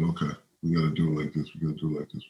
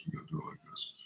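First: Said in the usual way. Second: Trailing off into a whisper; fading whisper. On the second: Retold or imitated. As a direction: whisper the last repeat as it dies away. Last repeat fades to a whisper.

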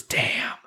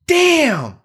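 First: Whispered curse; soft, breath-only "damn"; Raphael. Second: High-pitched, mock whiny "damn"; exaggerated too-high impression of a curse; Raphael. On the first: Retold or imitated. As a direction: whisper it under your breath. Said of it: "Raphael whispers his". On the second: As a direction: squeal the word way up high, then let it fall. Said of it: "like, higher pitched".

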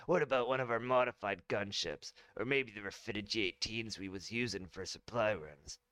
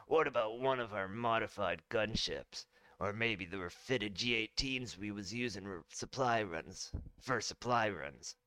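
First: Smooth confident general; clean retake. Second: Said in the usual way. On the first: Acted. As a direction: ask it in one clean go. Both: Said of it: "Let me try that line again".

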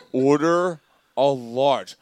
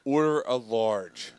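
First: Slow repeated line. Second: Slow retold line. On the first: Retold or imitated. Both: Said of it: "She goes".

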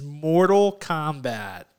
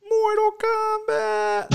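First: Said in the usual way. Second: Very high, drawn-out Mortal Kombat cry; playful high-pitched title call; hammed-up title cry. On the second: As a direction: stretch it out way up high like a game theme shout. Hammed-up echo of game title.

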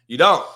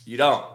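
First: DON'T punched louder and higher, rising at the end; emphatic repeat. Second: Said in the usual way. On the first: Real, not acted. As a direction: hit "don't" hard the second time.

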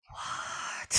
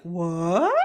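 First: Breathy, voiceless disbelief; stunned whisper. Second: Long rising disbelief; mock shocked question. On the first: Retold or imitated. Isis learning of the affair, outraged whisper. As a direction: hiss it out in a furious whisper. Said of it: "really mad". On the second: Isis hearing sister slept with Osiris, rising disbelief. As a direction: draw it out, sliding upward.

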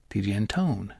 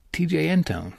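First: "Antone" with the weight on TONE; anTONE, second syllable leaned on, softer; stress on second syllable. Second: "Antone" said with the weight on AN; ANtone, first syllable hit hard; stress on first syllable. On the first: Trying the co-host's version of the name, stress second syllable. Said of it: "lay the stress on the second syllable". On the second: Co-host checking how he says the name, stress first syllable. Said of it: "lay the stress on the first syllable". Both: Shown as a demonstration.

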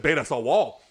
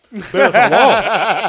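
First: Said in the usual way. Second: High, loud, slow through laughter; giggling excited realization; laughing repeat. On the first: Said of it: "repeated with laughter". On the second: Retold or imitated. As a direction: crack up repeating it.

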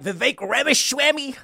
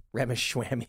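First: "Vivek Ramaswamy" in a higher put-on voice, mangled to "Ramashwamy"; mock the way a brash politician mangles "Ramaswamy"; Trump impression. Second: Said in the usual way. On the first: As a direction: say "Ramaswamy" with a slurred sh, pitched up, as a mocking impression. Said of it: "that's what Trump says". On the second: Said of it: "a silly mispronunciation".

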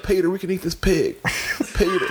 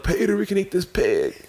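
First: Higher put-on Clinton from Family Guy; hammed-up cartoon Clinton calling Peter; Bill Clinton impression. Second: Higher put-on Clinton, taken again; mock Clinton calling Peter; Bill Clinton impression. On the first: Podcaster recreating a Family Guy Clinton bit, higher voice. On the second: Podcaster repeating his Family Guy Clinton line, higher. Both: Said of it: "my Bill Clinton voice".

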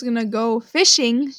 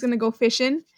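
First: Said in the usual way. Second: "fishing" ending in a plain n, Texan style; dropped G. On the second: Shown as a demonstration. Texan showing how they say "fishing", dropped G. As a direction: drop the final g of "fishing". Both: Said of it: "to not pronounce the G".

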